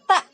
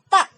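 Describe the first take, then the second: Both takes have the same delivery.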